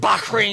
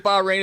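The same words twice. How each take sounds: First: Bahrain is said with an Arabic-style pronunciation. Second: Bahrain is said with a plain English pronunciation. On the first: The speaker calls it wrong. "instead of Bahrain" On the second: The speaker calls it right. "could you just say Bahrain"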